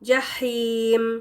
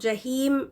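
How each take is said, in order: First: The h is a tense, throaty h from the throat. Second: The h is a light, breathy English-like h. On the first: The speaker calls it right. "यहाँ पर हा है" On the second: The speaker calls it wrong. "ये एच ई वाली आवाज़ नहीं, जहीम नहीं"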